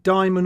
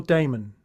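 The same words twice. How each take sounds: First: "Diamond" with first syllable like "die"; pronunciation choice. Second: "Damon" with first syllable like "day"; pronunciation choice. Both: Shown as a demonstration. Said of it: "do you pronounce it".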